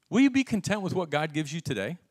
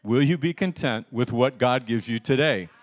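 First: Said in the usual way. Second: Louder, firmer challenge to the congregation; loud, insistent preacher's question; emphatic repeat. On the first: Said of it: "Pretty weak". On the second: Real, not acted. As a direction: press the question to get a stronger answer. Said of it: "That's very weak".

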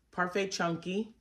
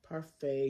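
First: "Parfait Chunky" with a questioning rise at the end; checking the yarn name, unsure of it; unsure rising tune. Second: "Parfait" said with a confirming fall; as if the answer is now certain; settled falling tune. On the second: Confirming the yarn name to viewers, with a settled falling tune. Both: Shown as a demonstration. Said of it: "Is that what it was?".

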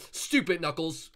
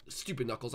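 First: Slow, drawn-out jeer; mock scold. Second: Said in the usual way. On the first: Sonic jeering at Knuckles, slow and mocking. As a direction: drag out the insult. Angry at seeker.

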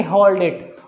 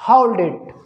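First: "होल्ड इट" with a pure Hindi o; mistaken plain o. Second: "होल्ड इट" as h-uh-oold it; "होल्ड इट" with an English diphthong; gliding o sound. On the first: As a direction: say "होल्ड इट" without gliding the o. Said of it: "ना कि". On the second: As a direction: glide "होल्ड" from uh to oo in "होल्ड इट". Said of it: "अ और उ का sound". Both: Shown as a demonstration.

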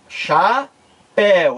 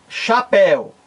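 First: CHAPÉU split slowly into cha and péu with a pause; teacher's slow split of CHAPÉU; syllable by syllable. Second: Said in the usual way. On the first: Shown as a demonstration. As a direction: draw out each syllable of CHAPÉU. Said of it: "Vamos fazer a separação silábica". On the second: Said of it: "Quer ver exemplo?".

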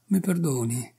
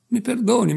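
First: Said in the usual way. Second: Pleading. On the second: A narrator's reading. Tearful barber begs forgiveness.

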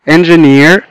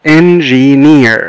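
First: Said in the usual way. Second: "engineer" slowly as en, gi, neer; three drawn-out beats on "engineer"; split into syllables. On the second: Shown as a demonstration. Teacher showing three syllables, "engineer" slowly broken up. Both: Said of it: "لو حبينا نقسمها لsyllables".

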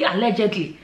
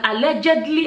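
First: Said in the usual way. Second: "allegedly" with a pointed rise; stress on allegedly. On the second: Shown as a demonstration. Warning viewers it is only rumour, pointed stress. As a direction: lean on "allegedly" to hedge. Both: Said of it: "don't forget all this is al".

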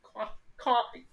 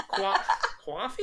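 First: Slow mock Boston coffee, said kwaffee; mimicked Boston coffee. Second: Slow laughing try at Coffee as kwaffee; mimicked Boston coffee. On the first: Copying friend's Boston coffee, slow mock accent. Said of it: "I am bullshit at accents". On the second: Copying friend's Boston coffee, slow and laughing. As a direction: stumble into kwaffee, laughing at yourself. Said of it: "Is that what you say?".

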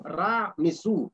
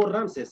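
First: "Ra Mesú" split in two, stressing "Ra" and final "sú"; deliberate Egyptian name "Ra Mesú"; correct Egyptian pronunciation. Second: "Ramses" as one two-syllable word; the Greek-style name "Ramses", run together; Greek pronunciation. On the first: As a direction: set "Ra" apart from "Mesú". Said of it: "Esto es su nombre correcto". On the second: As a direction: stress "Ram" in "Ramses". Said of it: "según la pronunciación griega". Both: Shown as a demonstration.

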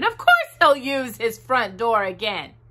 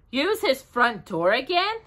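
First: "course" stressed, falling firmly to "again"; firm reassurance. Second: "again" lifted into a high question; questioning echo. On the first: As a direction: answer it firmly, leaning on "course". Christopher Robin answers his own question. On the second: Christopher Robin queries Bear's worry. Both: A narrator's reading.

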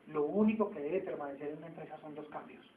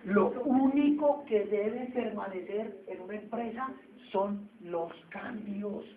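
First: Said in the usual way. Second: Único stretched out and raised, slow deliberate delivery; slow emphatic stress. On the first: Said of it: "repeats key sentence". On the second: Shown as a demonstration. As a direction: spell out "Lo único que debe permanecer" slowly, leaning on "único". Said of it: "repeats key sentence slowly".

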